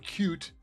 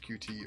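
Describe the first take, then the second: First: The name is said as one word, 'cute'. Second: The name is spelled out as two letters. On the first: "or cute" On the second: "use Q T"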